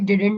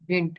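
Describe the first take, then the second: First: The middle d sound is clearly pronounced. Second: The middle d sound is dropped entirely. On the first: The speaker calls it wrong. "इसे डिडंट नहीं पढ़ते" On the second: The speaker calls it right. "ये वाला sound है ना, डी का, इसे हम खा जाएंगे"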